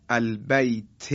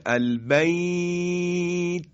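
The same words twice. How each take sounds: First: Said in the usual way. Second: البیت recited very slowly in a higher, recitation-like voice, its long vowel held; stretched recitation. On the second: Shown as a demonstration. Teacher recites البیت to the class, slowly drawn out. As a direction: chant البیت, drawing out its vowel. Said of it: "مد به وجود میاد".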